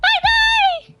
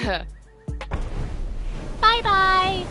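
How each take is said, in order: First: It is said in a high-pitched voice. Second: It is said in a lower voice.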